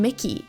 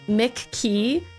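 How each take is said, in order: First: The name sounds like one word run together. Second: The name sounds like two separate words. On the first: The speaker calls it right. "Laura said she says Vern Mickey" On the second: The speaker calls it wrong. "I say your name, Vern McKee, like Mick Key"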